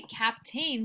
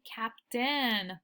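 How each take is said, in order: First: Captain as "cap-TAYN", full long A; wrong reading of captain. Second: Captain as "CAP-tin", weak second vowel; natural reading of captain. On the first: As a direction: rhyme the end of captain with "rain". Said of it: "we don't say captain". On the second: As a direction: reduce the end of captain to "tin". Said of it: "we say captain". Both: Shown as a demonstration.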